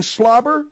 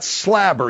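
First: Said in the usual way. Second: "slobber" said as "slabber", with the a of "cat"; mispronounced slobber. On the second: Retold or imitated. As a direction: mimic "slobber" with a short a, "slab-er". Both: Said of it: "You mean slobber?".

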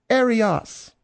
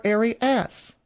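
First: Arias said air-ee-AHS; French-style Arias. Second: Arias said air-ee-ASS, drawn out; alternative French-style Arias. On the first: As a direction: end Arias on an open AHS. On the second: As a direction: end slow Arias on a short-a ASS. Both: Shown as a demonstration. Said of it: "the way you pronounce her last name".

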